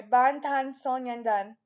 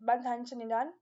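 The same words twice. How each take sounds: First: "Sonyeondan" said carefully as "son-yeon-dan"; corrected pronunciation. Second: "Sonyeondan" slurred to "so-nin-dan"; slightly fumbled pronunciation. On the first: Fan correcting a slip, "Sonyeondan" said carefully with clear "yeon". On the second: Fan naming the group, "Sonyeondan" fumbled as "so-nin-dan". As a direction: run through "Bangtan Sonyeondan" quickly, losing the "yeon". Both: Real, not acted.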